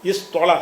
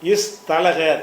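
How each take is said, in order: First: The t sound is an emphatic t. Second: The t sound is a plain t. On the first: This is the actual changed form. "தேய வந்து துவாவாக மாத்திரணும்" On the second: This is the underlying pattern form. "இஸ் தலகன்னு ஆக்கிடுவீங்க"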